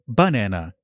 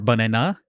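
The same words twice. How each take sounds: First: The high pitch is on the first syllable. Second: The high pitch is on the last syllable. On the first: "where the pitch is on the first syllable" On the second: "on the last syllable"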